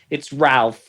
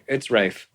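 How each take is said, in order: First: The name is said with an L sound. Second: The name is said without an L sound. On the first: The speaker calls it wrong. "She goes, "It's not Rafe, it's Ralph."" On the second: The speaker calls it right. "But no, it's Rafe"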